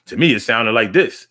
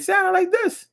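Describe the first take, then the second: First: Said in the usual way. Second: Very high squeak. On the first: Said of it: "in my head, it sounded like this". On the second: Shown as a demonstration. Host demonstrates how his voice sounded in his head, very high. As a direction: jump way up high on the line. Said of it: "And in my head".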